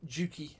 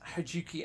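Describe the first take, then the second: First: The name begins without any H sound. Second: The name begins with an audible H sound. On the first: The speaker calls it right. "it's more like Juki. With the H sort ... Of either less pronounced or silent" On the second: The speaker calls it wrong. "I'm probably butchering it cheerfully here"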